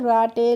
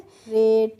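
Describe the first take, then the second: First: It sounds like 'rah-tay', ending in a vowel. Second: It sounds like 'rayt', ending in a consonant. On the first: The speaker calls it wrong. "ऐसे नहीं pronounce करना है" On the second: The speaker calls it right. "कैसे करना है"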